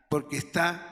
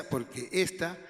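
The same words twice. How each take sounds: First: "está" stressed on the last syllable; end-stressed "está"; misplaced accent. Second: "esta" stressed on the first syllable; front-stressed "esta"; corrected accent. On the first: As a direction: misread it as "está", accent on the final a. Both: Real, not acted. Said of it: "el esta no lleva acento".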